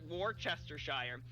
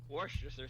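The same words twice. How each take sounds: First: It has five syllables, starting with war. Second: It has three syllables, starting with a short w. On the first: "the first syllable is war" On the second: "It's w. It's not war"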